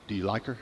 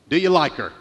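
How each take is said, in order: First: Softer, lower, a hushed question; quiet question. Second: Lightly voiced Jimmy Stewart. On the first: Retold or imitated. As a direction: ask it gently and quietly. Father-in-law asks softly. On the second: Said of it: "but he goes".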